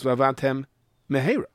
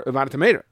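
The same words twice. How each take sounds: First: VA'AVADTEM, clear pause, then MEHERA; separated words. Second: "va'avadtem mehera" merged with a single M; words run together. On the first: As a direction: close the M of "va'avadtem" before starting "mehera". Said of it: "split second to separate the words". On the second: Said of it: "You only said one mem". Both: Shown as a demonstration.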